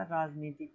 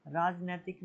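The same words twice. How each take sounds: First: राजनीतिक said with a long ee in the middle, raj-nee-tik; correct form. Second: राजनैतिक said with ai in the middle, raj-nai-tik; wrong form. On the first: Teacher giving students the right form, राजनीतिक with long ee. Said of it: "होता है". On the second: Teacher showing students the wrong form, राजनैतिक with ai. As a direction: say राजनैतिक as the mistaken version with ai. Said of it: "नहीं होता". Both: Shown as a demonstration.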